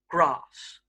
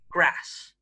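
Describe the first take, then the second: First: The vowel is a long open 'ah' sound. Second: The vowel is a short flat 'a' sound. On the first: The speaker is from southern England. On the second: The speaker is from northern England.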